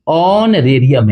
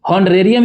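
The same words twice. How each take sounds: First: ऑनरेरियम starting on the vowel, slow and clear; ऑनरेरियम, h silent, spoken slowly. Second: हॉनरेरियम with a spoken h at the start; हॉनरेरियम pronounced with an h, as the wrong version. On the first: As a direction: say ऑनरेरियम with no h sound. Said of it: "ये ऑनरेरियम है". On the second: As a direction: say हॉनरेरियम sounding the h. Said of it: "ये नहीं है". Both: Shown as a demonstration.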